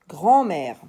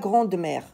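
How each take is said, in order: First: No d sound is heard before mère. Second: A d sound is heard before mère. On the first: The speaker calls it right. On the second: The speaker calls it wrong.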